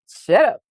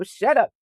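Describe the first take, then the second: First: Repeated shut up, pushed louder with a rising end; telling the chatter off a second time, harder. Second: Said in the usual way. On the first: Pretend. Voicing her own mind to the viewer, a louder mock scolding.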